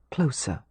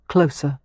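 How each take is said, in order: First: Soft. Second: Said in the usual way. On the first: A narrator's reading. Repeated word, fading softer.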